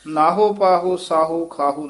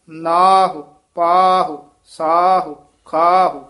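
First: ਨਾਹੋ, ਪਾਹੋ, ਸਾਹੋ, ਖਾਹੋ with a full o at the end; wrong o ending. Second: ਨਾਹੁ, ਪਾਹੁ, ਸਾਹੁ, ਖਾਹੁ with long aa and a light short u; short final u. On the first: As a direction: finish ਨਾਹੋ on a clear o, not short u. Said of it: "ਨਹੀਂ ਉਚਾਰਨ ਕਰਨਾ". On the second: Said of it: "ਫਿਰ ਉਚਾਰਨ ਕਰਨਾ ਹੈ". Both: Shown as a demonstration.

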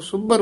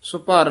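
First: ਸੁਭਰ said tightly, doubled middle b: "subbar"; ਸੁਭਰ with a held, tight "bb"; pressed, tight consonant. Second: ਸੁਭਰ said loosely as "subhar", single middle consonant; loose consonant, mistaken. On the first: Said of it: "ਕਸ ਕੇ ਬੋਲਣਾ ਹੈ". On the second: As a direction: mistaken ਸੁਭਰ without the pressed double b. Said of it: "ਨਹੀਂ ਬੋਲਣਾ". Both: Shown as a demonstration.

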